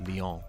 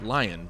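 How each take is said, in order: First: The name is said like lee-on, French style. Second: The name is said like the English word lion. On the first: It is read as a French name. "because he's French, it's pronounced Leon" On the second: It is read as an English word. "in English, you would pronounce that lion"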